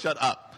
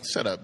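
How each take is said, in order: First: It is said in an aggressive tone. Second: It is said in a calm, unaggressive tone.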